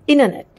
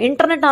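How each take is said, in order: First: The t after the n is dropped completely. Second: The t after the n is clearly pronounced. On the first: The speaker calls it right. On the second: The speaker calls it wrong.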